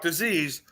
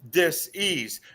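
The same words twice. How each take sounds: First: The word is said as one smooth unit. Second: The word is split into two separate parts. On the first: "not disease" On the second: "I call it dis-ease"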